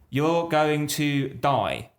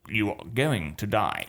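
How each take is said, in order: First: It is said like a child reading badly. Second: It is said in a flat, robotic voice. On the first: The speaker calls it wrong. "It's stressed in the wrong places" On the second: The speaker calls it right. "or a robot like"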